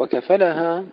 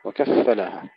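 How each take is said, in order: First: "وكفلها" with a single fa, wakafalaha; no doubling on the fa of "وكفلها"; light fa. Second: "وكفلها" with a stressed, doubled fa, wakaffalaha. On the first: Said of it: "بالتخفيف". ("وكفَلها" بالتخفيف) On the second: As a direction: press the fa in "وكفلها". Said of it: "قرأوا أولًا بتشديد الفاء". ("وكفّلها" بتشديد الفاء) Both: Shown as a demonstration.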